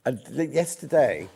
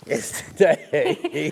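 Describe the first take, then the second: First: Said in the usual way. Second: Drawn out slowly through a yawn. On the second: Real, not acted. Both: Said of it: "I just heard him yawn".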